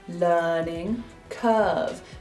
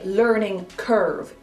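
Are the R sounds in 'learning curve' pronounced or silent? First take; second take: silent; pronounced. First: The R sounds are silent, British style. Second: The R sounds are pronounced, American style. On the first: The speaker calls it right. "Watch me very carefully" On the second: The speaker calls it wrong. "We do not say learning curve. If you do, you will sound American"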